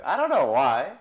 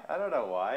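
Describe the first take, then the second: First: Put-on playful Southern accent, said loudly. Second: Said in the usual way. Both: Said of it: "makes me talk in a southern accent".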